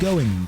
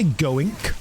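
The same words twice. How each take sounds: First: The word ends without a K sound. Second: The word ends with a K sound. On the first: The speaker calls it right. "I say going" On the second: The speaker calls it wrong. "I don't say K at the end of the word going. I don't say going"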